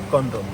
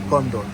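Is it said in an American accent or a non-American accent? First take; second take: American; American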